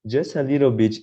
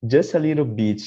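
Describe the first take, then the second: No difference in how they are said.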